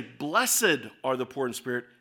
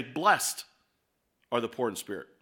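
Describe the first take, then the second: First: "Blessed" as two syllables, BLESS-ed. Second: "Blessed" as one syllable, blest, then a pause. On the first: Preacher contrasts two readings for the congregation, two-syllable "Blessed". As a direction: sound out the -ed in "Blessed" separately. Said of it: "put the emphasis on the different syllable". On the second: Preacher contrasts two readings for the congregation, one-syllable "Blessed". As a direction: say "Blessed" as blest and let it hang. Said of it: "means something different than if I say". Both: Shown as a demonstration.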